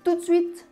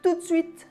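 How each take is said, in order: Both takes have the same delivery.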